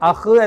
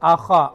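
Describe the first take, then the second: First: The word ends on a bare h sound. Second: The word ends on h plus an a vowel. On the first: The speaker calls it wrong. "അഹ് എന്നല്ല" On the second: The speaker calls it right. "ഹായിന് ഫതഹാണ്"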